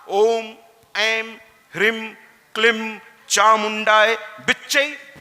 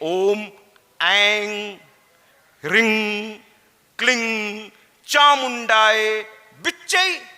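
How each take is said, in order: First: The syllables end in a nasal 'm' sound. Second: The syllables end in an 'ng' sound. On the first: The speaker calls it right. "एम लगा के भी बोलिए" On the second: The speaker calls it wrong. "एम की जगह कह दीजिए"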